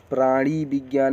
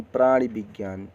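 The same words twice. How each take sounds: First: प्राणी विज्ञान with a long ee in प्राणी; long-ee take of प्राणी विज्ञान; wrong long vowel. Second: प्राणी विज्ञान with a short i in प्राणी; short-i take of प्राणी विज्ञान; correct short vowel. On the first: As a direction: stretch the ee ending प्राणी in प्राणी विज्ञान. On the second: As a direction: keep the i of प्राणी brief in प्राणी विज्ञान. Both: Shown as a demonstration. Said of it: "छोटी ई की मात्रा रहेगी".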